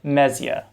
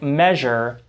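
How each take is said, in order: First: The middle has a z followed by y. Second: The middle has a merged zh sound. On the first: This is an older pronunciation. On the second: This is the modern pronunciation.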